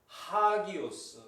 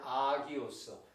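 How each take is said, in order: First: The word begins with an h sound. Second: The word begins directly with a vowel. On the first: "강순표가 붙음으로 말미암아 하, 하기오스 이렇게 되는 거죠" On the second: "요 강순표가 없었다면 그냥 아기오스죠"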